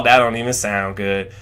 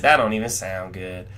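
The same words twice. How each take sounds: First: Low, lazy Texas drawl imitating Errol; a sly country Texas drawl. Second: Low, sly country drawl imitating Errol; sly Texas drawl. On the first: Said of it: "in his little Texas drawl". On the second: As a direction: slip it in slyly in a Texas drawl. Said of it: "slyly says".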